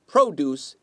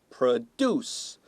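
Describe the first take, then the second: First: The stress is on the first syllable. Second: The stress is on the second syllable. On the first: It is a noun meaning fruits and vegetables. "if you stress the first syllable" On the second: It is a verb meaning to make. "第二个音节"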